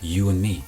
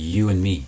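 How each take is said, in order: First: The d at the end of and is dropped. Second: The d at the end of and is dropped.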